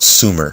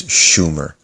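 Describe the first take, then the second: First: It uses today's usual English pronunciation. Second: It uses the original ancient pronunciation. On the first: This is how people say it today. "we call it Sumer today" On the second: This is how the Sumerians said it. "real pronunciation is Sumer"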